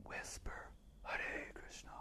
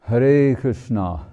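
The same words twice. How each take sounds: First: Unvoiced whisper of Hare Krishna. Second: Slow, louder call of Hare Krishna. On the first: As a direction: breathe Hare Krishna softly. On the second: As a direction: sing out the name slowly. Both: Shown as a demonstration. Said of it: "You can whisper".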